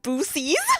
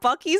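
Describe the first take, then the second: First: The word is said as Boosie's. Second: The word is said as Bucky's. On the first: The speaker calls it wrong. "she thought Bucky's was pronounced Boosie's" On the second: The speaker calls it right. "Bucky's is right"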